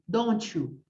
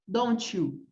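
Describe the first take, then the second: No difference in how they are said.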